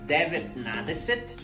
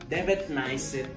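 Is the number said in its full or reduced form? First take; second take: full; reduced. First: Every syllable of the full form is said. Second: The word is shortened, dropping middle sounds. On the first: This is how it is written. "la manera escrita" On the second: This is how it is actually spoken. "la manera al último de cómo se pronuncia"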